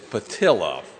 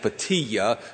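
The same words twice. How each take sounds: First: The name is said with an English-style pronunciation. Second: The name is said with a Spanish-style pronunciation. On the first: The speaker calls it right. "he told me it was South Alabama, it is Patilla" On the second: The speaker calls it wrong.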